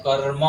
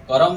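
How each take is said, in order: First: कर्म as "karr-ma", र joined straight to म; correct pronunciation. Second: कर्म misread as "karam", a vowel slipped after र; wrong pronunciation. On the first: Teacher corrects "karam" to कर्म, rolled-र demo. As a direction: roll the र in कर्म with no vowel after it. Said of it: "कर्म नहीं होता है". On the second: Teacher says it is not this, wrong कर्म demo. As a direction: loosen कर्म into two syllables, "ka-ram". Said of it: "नहीं होता है". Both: Shown as a demonstration.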